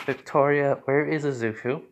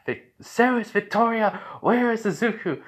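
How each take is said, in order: First: Said in the usual way. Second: High, urgent mock yell; raised, high-pitched demand; urgent calling out. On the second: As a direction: call out sharply for someone missing. Calling out for missing Izuku.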